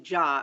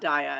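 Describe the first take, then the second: First: The surname begins with a 'J' sound. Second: The surname begins with a 'D' sound. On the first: The speaker calls it right. "as it's pronounced" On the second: The speaker calls it wrong. "as I know everyone"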